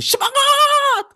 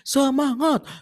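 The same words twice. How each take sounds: First: It is shouted very loudly. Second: It is said at a moderate volume.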